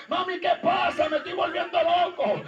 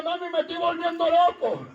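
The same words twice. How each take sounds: First: Half-shouted plea to a dead mother; a son calling out at his mother's grave, half shouting; distraught outcry. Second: Said in the usual way. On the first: Retold or imitated. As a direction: cry out, frightened and lost.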